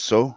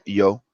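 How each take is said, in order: First: It is said with an Argentinian 'sh' sound. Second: It is said with a Spain Spanish 'y' sound.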